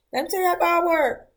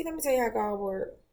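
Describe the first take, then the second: First: Much higher and fast, "Let me tell you how God work." ringing out; emphatic testimony. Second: Said in the usual way. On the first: Real, not acted. Telling her viewers about God's timing, emphatic and higher. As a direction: proclaim "how God work." like good news. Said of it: "same line said quietly before". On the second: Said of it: "repeated louder right after".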